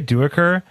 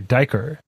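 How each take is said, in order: First: The vowel after the first consonant is pronounced. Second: The vowel after the first consonant is dropped. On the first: "I say Duaker" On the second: "they ignore the U"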